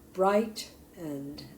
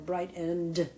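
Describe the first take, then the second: First: The stress is on the first syllable. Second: The stress is on the second syllable. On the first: The speaker calls it right. "the accent is going to go on bright" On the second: The speaker calls it wrong. "as opposed to"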